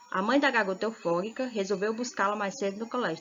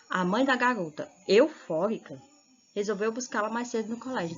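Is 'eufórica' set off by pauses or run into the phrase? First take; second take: run in; pauses. First: Eufórica runs on with no pause around it. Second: Eufórica is set off by pauses on both sides. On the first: The girl is the one who is euphoric. "eufórica está fazendo referência à garota" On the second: The mother is the one who is euphoric. "aí já está dando destaque à mãe"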